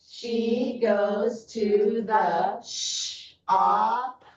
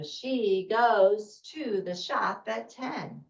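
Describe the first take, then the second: First: Very slow, each word stretched; slow choral reading. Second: Smooth, slightly slow, expressive reading; fluent sentence after practice; fluent read-aloud. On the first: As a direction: read word by word for a class. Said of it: "so it's gonna go like this". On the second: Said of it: "And so we go". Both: Shown as a demonstration.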